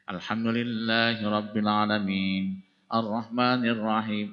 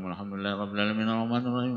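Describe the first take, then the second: First: It is recited slowly, with each verse kept separate. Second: It is recited fast, with the verses run together. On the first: The reciter is giving the prayer full attention. The speaker calls it right. "Padahal membaca dengan" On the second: The reciter is rushing to get somewhere else. The speaker calls it wrong. "merangkai surat Al-Fatihah itu sampai-sampai tidak memperhatikan kaidah tajwidnya ... Mau kemana kita teh?"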